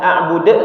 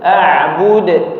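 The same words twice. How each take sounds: First: The final d has an added e vowel. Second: The final d bounces naturally without a vowel. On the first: The speaker calls it wrong. "bukan a'bude; Jangan ditambah dengan bunyi e" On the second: The speaker calls it right. "tapi a'bude ... Dia natural"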